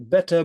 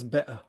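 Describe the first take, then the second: First: The middle consonant is a clear t sound. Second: The middle consonant is a glottal stop.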